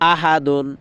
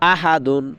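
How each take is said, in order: The two takes are said the same way.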